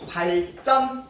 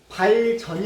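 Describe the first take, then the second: First: The second consonant is a tense, hard jj. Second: The second consonant is a plain, soft j. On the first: The speaker calls it right. "된 소리로 발음을 합니다" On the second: The speaker calls it wrong. "발전이 아니고"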